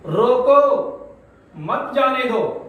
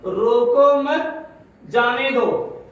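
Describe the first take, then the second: First: High "روکو", clear break, then "مت جانے دو"; pause after روکو. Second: Slow, raised "روکو مت", break, then "جانے دو"; pause after مت. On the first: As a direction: stop firmly after "روکو", then say "مت جانے دو" as one phrase. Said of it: "روکو کے بعد سکتا لگایا". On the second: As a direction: join "روکو مت", stop, then release "جانے دو". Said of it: "سکتا یہاں مت کے بعد ہے". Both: Shown as a demonstration.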